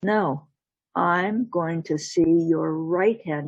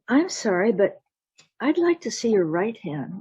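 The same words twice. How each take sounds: First: Slow, deliberate demand; firm demand. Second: Raised, courteous request; polite insistence. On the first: Jack refuses the wife's left hand, slow firm demand. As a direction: space the words out and settle firmly. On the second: Jack asks the miller's wife again, politely insistent. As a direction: press the point while staying polite. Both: Acted.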